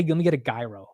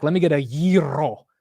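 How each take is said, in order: First: Gyro said as jai-ro, hard j like "giant"; "gyro" as jai-ro, j sound, plain r; American gyro pronunciation. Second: Gyro said as yee-ro with a rolled r; Greek gyro pronunciation. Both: Pretend. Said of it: "I'm gonna say".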